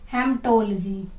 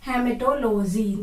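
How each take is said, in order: First: No vowel is heard after 'hem'. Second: An extra vowel is heard after 'hem'. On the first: The speaker calls it right. "ये कई बार silent form में जाता है, तो इसको हम पढ़ेंगे हेमटोलॉजी।" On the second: The speaker calls it wrong. "इसका करेक्ट प्रोनाउंसिएशन ये नहीं है, ये गलत है।"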